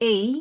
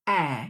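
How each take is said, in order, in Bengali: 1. স্বরধ্বনিটি 'day'-এর 'ay'-এর মতো গড়িয়ে যায়। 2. স্বরধ্বনিটি ছোট, 'cat'-এর 'a'-এর মতো। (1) "অনেকেই উচ্চারণ করে এই, সেটা না" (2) "শর্ট ভাওয়েল সাউন্ড হচ্ছে অ্যা"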